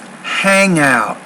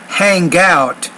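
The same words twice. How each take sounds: First: The N blends on with no hard G. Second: A hard G sound follows the N. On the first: The speaker calls it right. "but it's just hang out" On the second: The speaker calls it wrong. "it's not really hang out"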